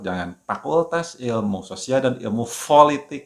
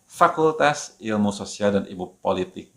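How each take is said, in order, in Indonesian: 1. Bunyi f dan p tertukar. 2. Bunyi f dan p dibedakan. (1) "nah jangan ketukar, jangan ... ya salah" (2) "Jadi F dan P-nya itu jelas"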